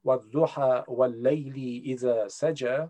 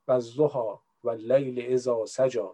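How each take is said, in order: First: Quran verse in an attempted Arabic accent, slow. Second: Quran verse with Persian intonation, slow, low; Persian accent. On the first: Speaker showing how they could recite in prayer, Arabic accent. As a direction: recite it slowly with Arabic pronunciation. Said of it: "سعی کنم لهجهٔ عربی به خودم". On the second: Speaker showing their preferred way to recite, Persian accent. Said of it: "با لهجهٔ فارسی دوست دارم بخونم". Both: Shown as a demonstration.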